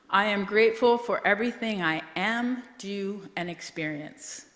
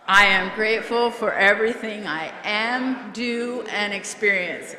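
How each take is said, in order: First: It is said with calm, ordinary energy. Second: It is said with noticeably more energy.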